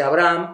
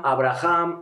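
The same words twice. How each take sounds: First: Abraham said as "abram", two syllables with no h; Abraham spoken. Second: Abraham said as "a-bra-HAM", a throaty h in the middle; Abraham with a breathy h. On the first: Scholar showing one way Abraham is pronounced, "a-BRAM" with no h. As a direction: say Abraham as "a-BRAM", short and without the h. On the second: Scholar contrasting the second pronunciation, Abraham with a throaty h. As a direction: give Abraham three syllables with a rasped h. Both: Shown as a demonstration. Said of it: "hemos oído que se dice".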